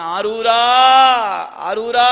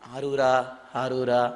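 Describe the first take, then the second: First: The call is shouted loudly from deep inside. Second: The call is said quietly and softly. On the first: This is the proper, heartfelt way to call. The speaker calls it right. "அப்படி கூப்பிடணும்" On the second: Calling this way cannot be truly experienced. The speaker calls it wrong. "அப்படி கூப்பிட்டாலாம் அனுபவிக்க முடியாது"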